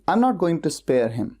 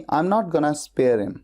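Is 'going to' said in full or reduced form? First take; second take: full; reduced. First: Going to is said as two full words. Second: Going to is reduced to gonna.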